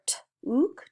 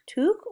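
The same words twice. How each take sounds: First: "T-ook" split after the T, with long ooh as in "food"; long ooh sound. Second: "t-ook" split after the t, with short vowel as in "book"; short oo sound. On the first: Teacher blending sounds, "T-ook" with a long ooh. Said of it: "it could be ooh". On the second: Teacher trying the other vowel, "t-ook" with short oo. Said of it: "or it could be uh". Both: Shown as a demonstration.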